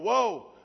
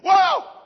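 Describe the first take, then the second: First: It is said calmly, like plain reading. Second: It is screamed in surprised alarm.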